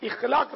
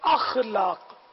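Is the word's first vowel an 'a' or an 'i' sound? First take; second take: i; a. First: The word begins with an 'i' vowel. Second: The word begins with an 'a' vowel. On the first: The speaker calls it wrong. "اخلاق نہیں" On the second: The speaker calls it right. "بلکہ اخلاق, صحیح تلفظ ہے اخلاق"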